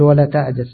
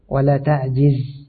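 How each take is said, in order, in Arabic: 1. لا يأتي بعد صوت الجيم حركة الكسرة. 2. يأتي بعد صوت الجيم حركة الكسرة. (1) "هذا خطأ" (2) "صحيح أن تقول"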